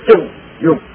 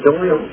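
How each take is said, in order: First: 中 is read the Shandong dialect way. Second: 中 is read in the standard Mandarin way. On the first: The speaker calls it right. "中用，对了" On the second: The speaker calls it wrong. "念成中用就错了"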